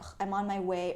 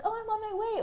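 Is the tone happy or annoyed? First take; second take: annoyed; happy. First: It is said in an annoyed tone. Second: It is said in a happy tone.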